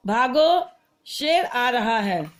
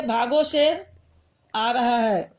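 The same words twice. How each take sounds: First: Slow भागो, a break, then शेर आ रहा है; भागो alone, then a slowly falling शेर आ रहा है; pause after भागो. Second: भागो शेर joined, long break, then आ रहा है; pause after शेर. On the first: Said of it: "ये अल्प विराम लगाया हमने". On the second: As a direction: run भागो into शेर and stop before आ रहा है. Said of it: "इसको और कहीं लगा देते". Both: Shown as a demonstration.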